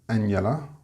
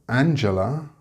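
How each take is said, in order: First: The middle consonant is an 'h' sound. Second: The middle consonant is a 'j' sound. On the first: The speaker calls it wrong. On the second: The speaker calls it right.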